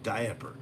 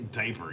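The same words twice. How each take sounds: First: It is said with a middle a sound. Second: It starts like die, with no middle a. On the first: The speaker calls it right. "because there's an a in that word" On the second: The speaker calls it wrong. "you can't say it like die"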